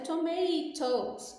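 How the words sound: The middle T is a clear, crisp T. "no inglês britânico... o T é bem pronunciado"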